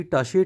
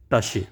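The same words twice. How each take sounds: First: टाशे said as German Tasche, rising at the end; टाशे with a short a and sh, lifted at the end; German word, rising. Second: टाशे said as German Tasche, dropped low and final; German word, falling low. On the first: Teacher introducing the German word टाशे to students. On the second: Teacher giving students the final pronunciation of टाशे. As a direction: give टाशे as the model answer, falling low. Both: Shown as a demonstration. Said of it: "pronunciation इसकी होगी".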